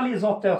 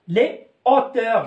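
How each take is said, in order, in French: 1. Un son z fait la liaison entre « les » et « hauteurs ». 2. « Les » et « hauteurs » se disent séparément, pas de son z. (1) "je dis pas les auteurs, c'est faux" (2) "je dis les haricots, les hauteurs"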